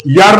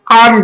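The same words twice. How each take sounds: First: यर starting with a Y sound; wrong pronunciation. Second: आर्न starting on an open vowel, no Y; vowel onset. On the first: Teacher shows pupils the mistake, यर with a Y onset. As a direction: say यर as if U were read 'yu'. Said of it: "इसको यर नहीं कहा जाता". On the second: Teacher shows pupils the correct word, आर्न starting on a vowel. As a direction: say आर्न with a plain vowel first. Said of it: "इसको आर्न कहा जाता है". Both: Shown as a demonstration.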